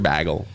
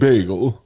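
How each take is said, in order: First: The word is pronounced in an odd, mocking way. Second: The word is pronounced in the standard way. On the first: The speaker calls it wrong. "I mean" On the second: The speaker calls it right. "I mean"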